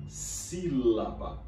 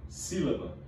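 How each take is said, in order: First: "sílaba" drawn out slowly, part by part; stretched syllables. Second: Said in the usual way. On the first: Shown as a demonstration. Teacher showing how elastic words are, "sílaba" elongated in every syllable. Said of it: "Eu elasteci um pouco cada uma das partes da palavra". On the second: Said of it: "eu posso dizer sílaba ou sílaba".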